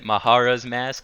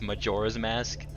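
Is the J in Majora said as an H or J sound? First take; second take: H; J. First: The J is said like an H sound. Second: The J is said like a J sound. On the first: "I pronounce it Mahara's Mask" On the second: "everybody says it's Majora's Mask"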